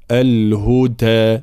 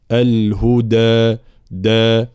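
First: Slow الهدى with د near ت; deficient dal. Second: Drawn-out الهدى, strong د; correct voiced dal. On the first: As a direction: underdo the د of الهدى, half devoiced. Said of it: "ناقصة هنا". («الهدى» بدال ناقصة الجهر) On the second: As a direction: hit a fully voiced د in الهدى، دا. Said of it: "الدال مجهورة وشديدة". («الهدى» بدال مجهورة شديدة) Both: Shown as a demonstration.

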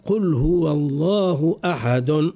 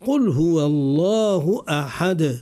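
First: أحد ending in a voiced vowel, ahadun; wrong vowel stop. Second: أحد ending cleanly on the silent d, said slowly; correct silent stop. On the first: Teacher showing the mistaken stop on أحد. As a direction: say قل هو الله أحد with the final vowel still sounding. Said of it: "لا نقول". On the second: Teacher giving the correct stop on أحد. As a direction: recite قل هو الله أحد slowly, stopping on a silent d. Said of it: "ما نقفوش على الكلمة الحرف الأخير منها بالحركة". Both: Shown as a demonstration.

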